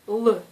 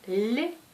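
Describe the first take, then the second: First: The consonant is hard, with the tongue kept low. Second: The consonant is soft, with the tongue raised. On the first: "c'est un son dur" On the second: "c'est un son mou"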